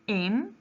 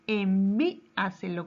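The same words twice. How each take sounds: First: Envíaselo in five separate beats, long pauses; syllable by syllable. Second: Said in the usual way. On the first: Shown as a demonstration. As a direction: count out Envíaselo: en, ví, a, se, lo. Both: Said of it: "¿Cuántas sílabas tiene?".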